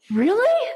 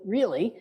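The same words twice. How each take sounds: First: Really leaps much higher in amazed wonder; delighted really. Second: Falling, fed-up really; disgusted really. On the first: Shown as a demonstration. Scene: speaker shows wonder instead of judging, amazed. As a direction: gasp it out in awe. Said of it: "Instead, you could go". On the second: Retold or imitated. Scene: bird poops on your windshield, fed-up sigh. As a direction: groan it at the windshield. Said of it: "a bird poops on your windshield".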